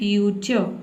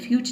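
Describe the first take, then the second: First: The word ends with a short 'uh' vowel. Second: The word ends abruptly without a final vowel. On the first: The speaker calls it right. "इसलिए मैं यहाँ पे अ का sound दूँ, आपको बोलना है फ्यूचर" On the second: The speaker calls it wrong. "फ्यूच नहीं"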